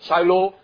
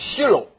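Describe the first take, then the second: First: The name is said with an American pronunciation. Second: The name is said with a Hebrew pronunciation. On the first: "We pronounce the word as H-I" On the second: "In Hebrew is Shiloh"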